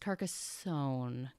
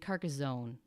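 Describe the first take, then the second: First: The middle consonant is an s sound. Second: The middle consonant is a z sound. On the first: The speaker calls it right. "It's Carcassonne" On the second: The speaker calls it wrong. "I was saying Carcassonne with like a Z"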